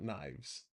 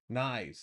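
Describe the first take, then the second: First: The name is said with a v sound. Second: The name is said without a v sound. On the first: The speaker calls it wrong. "not knives" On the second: The speaker calls it right. "No V"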